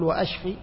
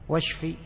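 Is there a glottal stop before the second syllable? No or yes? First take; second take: yes; no. First: A glottal stop cuts in before the second syllable. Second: The word is linked with no glottal stop. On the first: It asks for destruction. The speaker calls it wrong. "ما تقول وأشفي؟ وأشفي يعني أهلك، شوف همزة القطع" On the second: It asks for healing. The speaker calls it right. "فإذا واشفي أنت الشافي"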